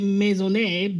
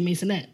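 First: The name is said with French pronunciation. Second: The name is said in a relaxed, casual way. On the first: "So it's French, so, you know, they say Maisonet" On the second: "and then we're lazy, so we just say Maisonet"

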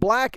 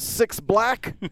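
First: The name is just the single word 'black'. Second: The name begins with the word 'six'. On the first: The speaker calls it right. "it's actually pronounced" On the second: The speaker calls it wrong. "in my head, whenever I read it, I pronounce as"

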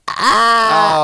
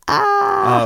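First: The scream is louder. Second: The scream is quieter.

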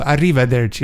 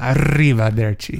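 First: The R is lightly tapped, not strongly rolled. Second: The R is strongly rolled and trilled. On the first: The speaker calls it right. "I think they go arrivederci" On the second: The speaker calls it wrong. "not arrivederci"

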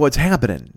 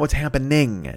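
First: The final g of happening is dropped. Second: The final g of happening is clearly pronounced. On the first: The speaker calls it right. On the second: The speaker calls it wrong.

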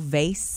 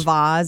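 First: The word is said in the plain, everyday way. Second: The word is said in a fancy-sounding way.

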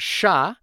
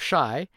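First: The vowel sounds like 'ah'. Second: The vowel sounds like 'eye'. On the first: This is how others mispronounced the name. The speaker calls it wrong. "they would always call it Sha instead of Shy" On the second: This is the name's real pronunciation. The speaker calls it right. "it's just the word shy"

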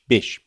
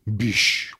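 First: The name is said in a plain, ordinary manner. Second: The name is said in a haughty, posh manner. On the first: "They just say Bysshe" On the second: "like I'd pronounce it, which is haughty. The haughty Bysshe"

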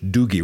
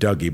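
First: The name is said with a Celtic pronunciation. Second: The name is said with a plain English pronunciation. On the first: The speaker calls it right. "it's pronounced more in Celtic language" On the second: The speaker calls it wrong. "rather than"

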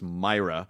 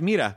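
First: The first vowel sounds like 'eye'. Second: The first vowel sounds like 'ee'. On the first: The speaker calls it right. "his last name is pronounced Myra" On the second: The speaker calls it wrong.

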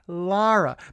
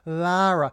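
First: The first vowel is a light ah. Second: The first vowel is a drawn-out ah. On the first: The speaker calls it right. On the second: The speaker calls it wrong. "you don't want to go too much on the ah"

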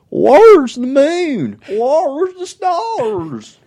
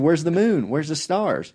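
First: It is said in a put-on imitating voice. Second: It is said in the speaker's own normal voice. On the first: Someone else is being imitated. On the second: It is plain narration of the words.

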